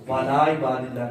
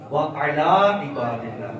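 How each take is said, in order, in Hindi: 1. शुरुआत 'wala' की तरह जुड़ी हुई है। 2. शुरुआत 'wa ala' की तरह अलग-अलग है। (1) "वाला इबादिल्लाह नहीं"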